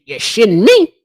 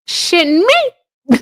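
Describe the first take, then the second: First: Said in the usual way. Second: Incredulous. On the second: Real, not acted. Repeats the question, stretched and high.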